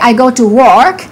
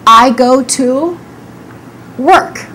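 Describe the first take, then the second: First: The vowel in work sounds like a full O. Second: The vowel in work is a reduced er sound. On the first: The speaker calls it wrong. "We don't say" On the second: The speaker calls it right. "We say"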